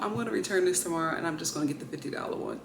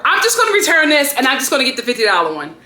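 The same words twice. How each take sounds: First: Much softer, fast resigned murmur; resigned mutter. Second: Louder, fast fed-up declaration; fed-up rant. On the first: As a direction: say it under your breath, giving up. Calmer repeat after sigh. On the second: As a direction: blurt it out fast and loud, done with it. Fed up, announces return. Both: Real, not acted.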